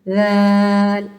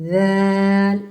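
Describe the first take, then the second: No difference in how they are said.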